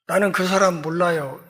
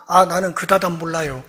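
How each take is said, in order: First: Said in the usual way. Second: 사람 comes out as 다담, with d sounds; Galilean dialect slip. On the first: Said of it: "이렇게 얘기를 했는데". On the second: Retold or imitated. Peter denying he knows the man, Galilean dialect slip. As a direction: say 그 다담 in place of 그 사람. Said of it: "그 사투리를 딱 듣고".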